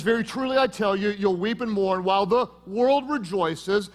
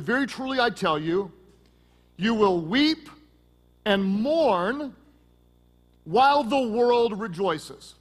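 First: Said in the usual way. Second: "weep" and "mourn" each lifted and stretched, slow; slow solemn reading. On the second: Shown as a demonstration. Pastor reading Jesus' words to the congregation, slow and solemn. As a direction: read it slowly, weighing every word. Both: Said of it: "look at it again".

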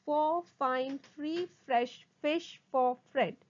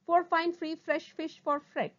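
First: Slow, distinct words; slow tongue twister. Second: Brisk, higher-pitched run; sped-up tongue twister. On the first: Teacher models a twister for students, slowly. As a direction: give each word its own space. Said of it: "first try saying them slowly". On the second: Teacher shows the twister at speed, briskly. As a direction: push through without pausing. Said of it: "speed up". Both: Shown as a demonstration.

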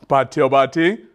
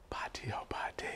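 First: Said in the usual way. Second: Hushed, voiceless call to listeners; whispered call. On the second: Pretend. Storyteller checks on the children mid-story, whispered call. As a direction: whisper it, inviting a reply.

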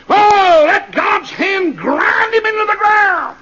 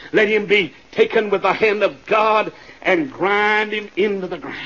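First: High, slow roar of judgment; drawn-out pulpit shout; full-force preaching. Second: Said in the usual way. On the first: Real, not acted. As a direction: roar it out, dragging the words. Repeats the curse at full force.

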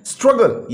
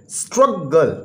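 First: Said in the usual way. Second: स्ट्रगल split into two beats, strug-gul; syllable by syllable. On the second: Shown as a demonstration. Teacher showing a two-syllable word, syllable by syllable. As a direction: break स्ट्रगल after strug, then gul. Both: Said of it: "ये भी two syllable word है".

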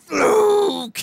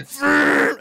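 First: Very high, loud hammed-up Fluke; mock shout. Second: Loud, high mocking bark of Fluke; mock shout. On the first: Imitating Roode stepping forward, loud high yell. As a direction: roar it right into the camera. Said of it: "walks up in front and goes". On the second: Imitating Roode's Fluke, loud and high. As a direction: blurt it like the angry champ. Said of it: "he's like".

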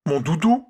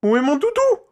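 First: High, loud alarmed cry; frightened boy crying out; panicked cry. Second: Very high, loud panicked cry; boy shrieking in alarm; panicked shout. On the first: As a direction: call out in sudden panic. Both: A narrator's reading. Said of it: "s'affola-t-il".

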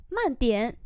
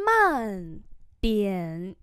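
First: Said in the usual way. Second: Two syllables held apart; slow model reading. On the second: Shown as a demonstration. Teacher modelling "slow down a bit" for learners, drawn out. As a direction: draw out each syllable and its tone.

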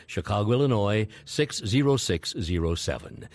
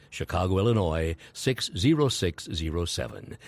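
The two takes are said the same way.

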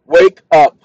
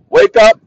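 First: Loud wake call. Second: High wake call. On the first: Man waking the assistant again with a loud call. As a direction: wake up called out loud at normal pitch. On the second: Man demonstrating waking his assistant with a high loud shout. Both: Shown as a demonstration. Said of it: "Watch this".

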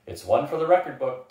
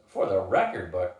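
First: Said in the usual way. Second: Lower-pitched challenge; challenging. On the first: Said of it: "Tananda agreed". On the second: A narrator's reading. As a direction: throw the phrase back in disbelief. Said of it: "Gus challenged".

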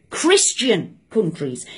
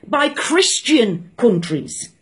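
First: Repeated slowly and lower; quiet emphatic echo; slower, quieter repeat. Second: Slow, weighted words; stressed and slow. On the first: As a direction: let it sink in, slower and softer. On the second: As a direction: lay each word down slowly. Stressing the point slowly. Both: Real, not acted.

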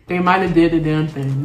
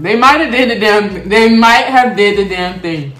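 First: Said in the usual way. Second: Louder, slow and emphatic; emphatic praise. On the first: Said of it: "repeats it louder". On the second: Real, not acted. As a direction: really sell the line. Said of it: "repeats it louder and slower".

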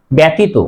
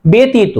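First: ব্যতীত said "byatito"; common mispronunciation. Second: ব্যতীত said "betito"; correct e sound. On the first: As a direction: open a vowel in first syllable of ব্যতীত. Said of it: "ব্যতীত হবে না". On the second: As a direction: close e vowel starting ব্যতীত. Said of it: "উচ্চারণ হবে". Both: Shown as a demonstration.

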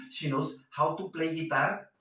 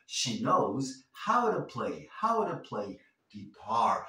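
First: How to with a hard clear t, not tapped; the stiff non-native way to say how to; wrong careful t. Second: How to said like howdu, t tapped like r; native flapped t. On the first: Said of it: "No queremos sonar así". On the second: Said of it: "Queremos sonar como un nativo". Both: Shown as a demonstration.

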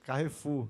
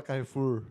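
First: Carrefour said kahefu, no R at the end; Carrefour without final R. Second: Carrefour said kahefur, R sounded at the end; Carrefour with final R. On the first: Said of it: "A gente fala também só assim". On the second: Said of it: "não fala Carrefour". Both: Shown as a demonstration.

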